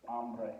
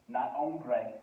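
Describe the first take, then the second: First: Hambre, ah vowel, ambre; the teacher says hambre, vowels stressed; hambre with a clear open a. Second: Hombre, o vowel, ombre; hombre with a round o. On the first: Spanish teacher models hambre, open a sound. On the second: Teacher contrasts hombre against hambre, round o. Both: Shown as a demonstration.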